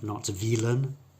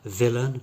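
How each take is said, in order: First: The first vowel is a long E sound. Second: The first vowel is a short I sound. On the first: The speaker calls it wrong. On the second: The speaker calls it right.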